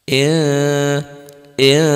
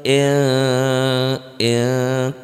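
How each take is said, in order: No difference in how they are said.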